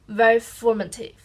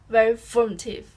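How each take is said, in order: The two takes are said the same way.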